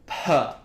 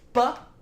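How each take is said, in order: First: The p has a long, heavy puff of breath. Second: The p has no puff of breath.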